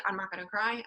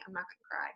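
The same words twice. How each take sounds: First: Said in the usual way. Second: Much softer, choked and close to breaking; holding back tears. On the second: Real, not acted. Team leader fighting tears while praising a teammate, choked and faint. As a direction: swallow the tears and barely get it out. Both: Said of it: "I could cry right now".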